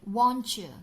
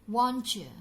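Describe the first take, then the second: Both takes have the same delivery.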